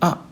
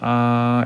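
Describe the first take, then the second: First: The syllable is said short and quick. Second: The pitch stays level and steady. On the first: "사성의 경우에는 아 짧게 발음하면 사성에 가까워집니다" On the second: "일성은 아 라고 하면서 ... 입에서 그대로 나는 느낌으로 말하면 아이들의 성조는 일정하게 납니다. 아 이렇게요"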